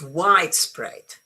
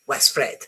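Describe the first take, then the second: First: The stress is on the first part. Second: The stress is on the second part. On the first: The speaker calls it right. "the stress is um, um, on the first bit" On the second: The speaker calls it wrong.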